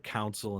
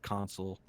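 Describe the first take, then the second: First: The word sounds like 'council'. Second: The word sounds like 'console'. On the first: The speaker calls it wrong. "I say this word wrong by the way" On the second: The speaker calls it right. "instead of console"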